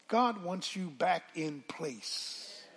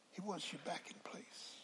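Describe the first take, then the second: First: Said in the usual way. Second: Hushed whisper of a promise. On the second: Shown as a demonstration. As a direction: breathe the line to the congregation.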